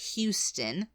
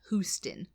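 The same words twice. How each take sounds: First: Houston is said the way Texans say it. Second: Houston is said the way British people say it.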